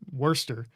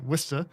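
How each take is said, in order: First: It begins like the word worst. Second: It has a 'yu'-like vowel in it. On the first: "almost like worst" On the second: "almost like a U E sound or E U sound"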